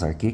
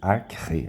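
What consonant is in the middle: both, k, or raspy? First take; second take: k; both. First: Only a plain k sound is in the middle. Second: A k and a raspy r come together. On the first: "você pode falar apenas Arque, que está certo" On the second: "Seria um K e um R ao mesmo tempo"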